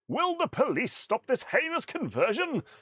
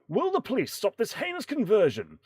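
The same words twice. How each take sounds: First: It is read in a put-on character voice. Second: It is read in the speaker's normal voice.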